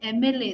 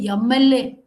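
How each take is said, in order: First: It starts directly with the vowel sound. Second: A 'y' sound is added before the vowel. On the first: The speaker calls it right. "they won't say M L A" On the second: The speaker calls it wrong. "they'll say M L A. ... year is added"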